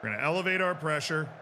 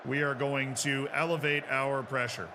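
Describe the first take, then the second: First: Fast, stress on our. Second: Slow stress on elevate. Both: Real, not acted. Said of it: "repeated faster".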